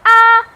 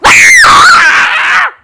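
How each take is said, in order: First: It is a soft, mild sound. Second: It is a loud, terrified scream.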